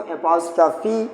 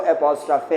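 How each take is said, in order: First: एपोस्ट्रॉफी with a long "ee" ending; wrong pronunciation. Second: एपोस्ट्रॉफे with an "e" ending, not "ee"; correct pronunciation. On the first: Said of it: "बहुत सारे लोग इसको एपोस्ट्रॉफी". (एपोस्ट्रॉफी, ग़लत उच्चारण, अंत में "फी") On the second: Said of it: "इसकी actual pronunciation जो है". (एपोस्ट्रॉफे, सही उच्चारण, अंत में "फे") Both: Shown as a demonstration.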